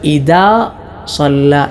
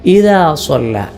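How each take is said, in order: First: The consonant after i is a hard d. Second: The consonant after i is a soft th. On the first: The speaker calls it wrong. "പലരും ഇദാ സ്വല്ല എന്നൊക്കെ ഓതാറുണ്ട്, അത് പിഴവാണ്" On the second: The speaker calls it right. "ദാൽ ദാലായി പോകാൻ പാടില്ല"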